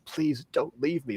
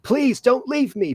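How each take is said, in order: First: The line is said quietly and held back. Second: The line is shouted loudly and intensely. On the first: "but no, I'm like" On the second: "you'd imagine he's like shouting"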